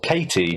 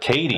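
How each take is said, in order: First: The middle consonant is a clear T sound. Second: The middle consonant sounds like a soft D. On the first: The name was heard as the usual name. "I thought it was just Katie" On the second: The name was heard as said the American way. "but like Katie"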